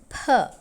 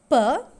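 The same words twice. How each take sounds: First: The p is said with a puff of air. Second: The p is said without a puff of air. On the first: "with aspiration" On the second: "that is without aspiration"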